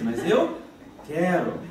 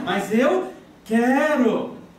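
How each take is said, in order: First: It is said at a normal volume. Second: It is said at a louder volume. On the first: "Ela repete mais uma vez" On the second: "Aí ela responde mais alto"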